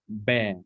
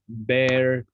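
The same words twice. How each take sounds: First: It is said in a British accent. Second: It is said in an American accent. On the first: "if you prefer British accent, it should be" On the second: "If you're an American"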